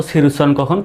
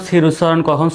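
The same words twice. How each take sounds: The two takes are said the same way.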